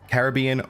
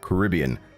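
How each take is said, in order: First: The word opens with a full 'Cara' sound. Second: The word opens with a reduced 'K-rib' sound. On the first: "Is it Cara, as in K A R A" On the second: "Carib, like K-rib"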